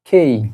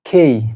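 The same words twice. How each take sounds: Both takes have the same delivery.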